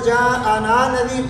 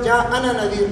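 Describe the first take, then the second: First: The vowel in 'ana' is long. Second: The vowel in 'ana' is short. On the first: The speaker calls it right. "इसमें भी अलिफ पढ़ा जाएगा" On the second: The speaker calls it wrong. "बहुत सारे लोग जा अना नदीर पढ़ते हैं, ये गलत है"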